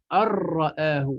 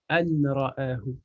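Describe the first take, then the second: First: The n merges fully into a doubled r. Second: The n is heard clearly before the r. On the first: The speaker calls it right. "ça va rentrer dedans" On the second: The speaker calls it wrong. "je vais pas dire an-ra'ahu"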